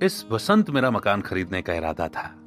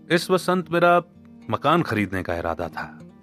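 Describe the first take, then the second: First: The stress is on Vasant. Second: The stress is on मकान.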